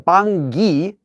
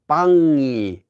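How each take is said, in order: First: A hard g sound begins the second syllable. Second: The ng sound flows into the final vowel. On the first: The speaker calls it wrong. "So you don't get a 방기" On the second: The speaker calls it right. "It's 방이"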